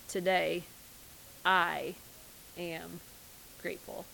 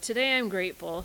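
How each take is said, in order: First: It is said slowly, pausing after each word. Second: It is said straight through without pauses.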